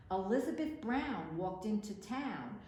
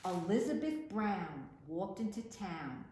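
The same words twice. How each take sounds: The two takes are said the same way.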